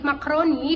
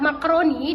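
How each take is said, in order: First: No vowel comes between k and r. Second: An a sound comes between k and r. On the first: The speaker calls it wrong. "penghilangan fonem A" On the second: The speaker calls it right. "Lafalan bakunya itu contohnya terdiri dari kata makroni"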